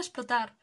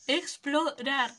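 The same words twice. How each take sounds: First: Explotar read with a t instead of r; misread explotar. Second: Explorar slow, clear r in each syllable; corrected explorar. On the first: Real, not acted. Streamer misreads explotar while reading the dialogue. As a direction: say explotar, as in blow up. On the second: Shown as a demonstration. Streamer correcting herself, slowly saying Explorar. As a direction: spell out Explorar slowly to fix the misreading. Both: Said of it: "¿por qué leo explotar todo el rato?".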